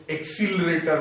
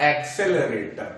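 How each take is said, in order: First: "एक्सीलरेटर" with a long ee in the second syllable, ek-SEE-l-re-tar; "एक्सीलरेटर" the popular way, ek-seel-retar; common mispronunciation. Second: "एक्सेलरेटर" with a short e in the second syllable, ek-SEL-e-re-tar; "एक्सेलरेटर" sounded out carefully as ek-sel-e-retar; correct pronunciation. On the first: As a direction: say "एक्सीलरेटर" with सी in place of से. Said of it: "लेकिन सही तरीका होता है". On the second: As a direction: say "एक्सेलरेटर" with से, not सी. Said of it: "सही तरीका होता है". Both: Shown as a demonstration.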